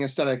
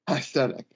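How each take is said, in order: First: The word is said smoothly at a normal pace. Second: The word is drawn out with gaps between parts. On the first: It means a general style or look. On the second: It means the ironic internet vaporwave style.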